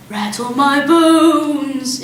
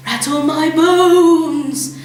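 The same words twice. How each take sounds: First: Slow, sing-song spooky parrot; soft spooky voice. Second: Slow, drawn-out spooky croak; haunt the room as a bird; spooky parrot voice. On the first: Parrot's soft spooky voice scaring the family, slow and eerie. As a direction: drift the words eerily. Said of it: "soft and spooky this time". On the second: Parrot doing its spooky voice for Matilda, slow and eerie. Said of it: "imitation of a spooky voice". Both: A narrator's reading.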